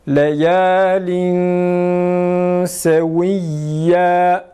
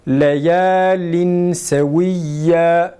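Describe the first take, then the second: First: The n is hidden as a nasal hum. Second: The n is pronounced fully before the s. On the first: "Şimdi ihfalı" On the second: "ihfasız bir şekilde okunur"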